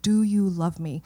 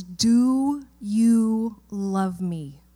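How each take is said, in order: First: Said in the usual way. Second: Very slow, each word weighed, stress on Do; slow, weighty question. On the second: Retold or imitated. Pastor voicing Jesus asking Peter, very slow and weighty. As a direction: let Do you love me sink in slowly.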